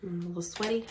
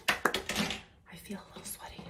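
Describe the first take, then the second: First: Said in the usual way. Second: Soft whispered aside; whispering. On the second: Real, not acted. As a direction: whisper it to yourself. Same words then whispered.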